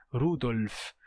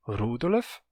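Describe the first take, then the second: First: Standard German "Rudolf", two syllables; pronúncia padrão. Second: "Rudolf" in three syllables, RU-do-lef; pronúncia hunsriqueana. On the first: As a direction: run L straight into F in "Rudolf", no vowel between. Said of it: "dificilmente um falante de Unzikiano vai dizer". ("Rudolf" com L e F colados, como no alemão padrão) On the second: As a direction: put a short vowel between L and F in "Rudolf". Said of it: "dificilmente um falante de Unzikiano". ("Rudolf" com vogal extra, "Rúdolef") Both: Shown as a demonstration.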